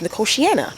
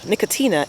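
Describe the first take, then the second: First: The word ends in 'tiana' with an extra 'ah' syllable. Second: The word ends in 'tina' with no 'ah' syllable. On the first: The speaker calls it right. "and it's Nicotiana" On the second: The speaker calls it wrong. "I call it Nic Nicotina"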